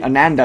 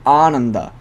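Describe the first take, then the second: First: The first vowel sounds like a short 'uh'. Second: The first vowel sounds like a long 'ah'. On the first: The speaker calls it wrong. "it wouldn't be Ananda" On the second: The speaker calls it right. "it'd be Ananda"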